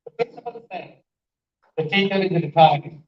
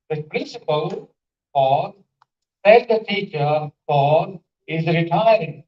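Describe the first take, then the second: First: "The principal said", clear break, "the teacher is retiring"; two groups split after "said"; one pause after said. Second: Breaks after "principal" and "teacher", each spoken as "pause"; slow, three groups split at "principal" and "teacher"; two pauses. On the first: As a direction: stop after "said", then run the rest together. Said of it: "Principal said is the first group". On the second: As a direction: set "said the teacher" apart between two pauses. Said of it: "significance of pause". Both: Shown as a demonstration.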